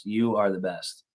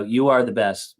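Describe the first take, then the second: First: Slower, softer, heartfelt repeat; sincere thanks. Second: Said in the usual way. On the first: Real, not acted. Streamer thanking a generous viewer, slow and heartfelt. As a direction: say it again and really mean it.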